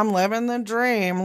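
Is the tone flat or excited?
flat. It is said in a flat, unenthusiastic tone.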